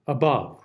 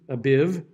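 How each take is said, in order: First: "Above" with both vowels as uh; "Above" read as the single accepted form; correct above. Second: "abiv" with an ih in the second syllable, the unaccepted form; "abiv" demoed as the pronunciation to avoid; wrong vowel. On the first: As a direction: say "Above" the only right way, uh vowels. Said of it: "You would never say above, abiv". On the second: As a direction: say "abiv" as the mistaken ih version. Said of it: "You would never say". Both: Shown as a demonstration.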